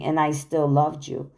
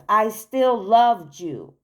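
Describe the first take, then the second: First: Said in the usual way. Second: LOVED stretched out, slower and higher; slow heartfelt insistence on LOVED; emphatic repeat. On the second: Real, not acted. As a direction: lean hard on I still LOVED you, slowly.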